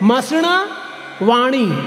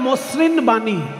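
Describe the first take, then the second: First: It is pronounced the Sanskrit way. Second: It is pronounced the Bengali way. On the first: The speaker calls it right. "সংস্কৃত পদ উচ্চারণ করতে হবে সংস্কৃতে।" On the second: The speaker calls it wrong. "Bangla বললে হয় মসৃণ বাণী"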